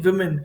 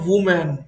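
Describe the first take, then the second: First: The first syllable sounds like 'wi'. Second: The first syllable sounds like 'woo'. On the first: The speaker calls it right. "विमेन होती है इसकी correct pronunciation विमेन" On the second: The speaker calls it wrong. "कुछ students इसको pronunciation pronounce करते हैं वुमेन"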